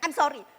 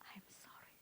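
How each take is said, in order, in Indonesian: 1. Permintaan maafnya terdengar ceroboh dan tidak tulus. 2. Permintaan maafnya terdengar tulus dan sungguh-sungguh. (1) "jangan I'm sorry" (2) "kalau kita ngomong I'm sorry, I'm really sorry"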